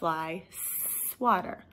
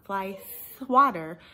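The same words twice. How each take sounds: First: The S is clear, teeth together, tongue behind. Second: The S sound is distorted, not cleanly made. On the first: The speaker calls it right. "your teeth are together and your tongue is behind it" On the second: The speaker calls it wrong. "So not fly swatter"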